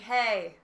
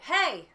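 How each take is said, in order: First: It is said flatly with little energy. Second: It is said with strong energy and force. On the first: The speaker calls it wrong. "that's boring" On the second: The speaker calls it right. "have an actual something behind it"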